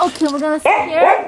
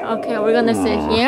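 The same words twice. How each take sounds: First: High sing-song voice to a dog; pet talk. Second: Said in the usual way. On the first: Real, not acted. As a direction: coo it to the puppy. Talking to her dog.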